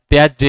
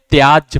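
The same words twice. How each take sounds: First: त्याज्य with a short vowel and trailing "ye", "tyaj-ye"; wrong pronunciation. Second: त्याज्य with long "aa", closing quickly on j; correct pronunciation. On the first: Teacher reading the faulty त्याज्य, mispronounced as tyaj-ye. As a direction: end त्याज्य on a sounded "ye". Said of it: "यहाँ गलत है". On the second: Teacher showing how त्याज्य is read, correctly pronounced. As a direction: say त्याज्य as "tyaaj". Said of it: "पढ़ा जाता है". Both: Shown as a demonstration.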